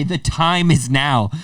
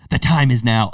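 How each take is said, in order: First: Slow, solemn hero proclamation; epic quest line. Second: Said in the usual way. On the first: Shown as a demonstration. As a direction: announce it like the start of a grand quest. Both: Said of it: "like a quest".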